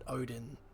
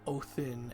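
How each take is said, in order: First: The middle consonant is a d sound. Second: The middle consonant is a th sound. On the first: This is the usual English form of the name. "where we in English get Odin" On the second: This is the original Old Norse form of the name. "So in Old Norse, you've got Othin"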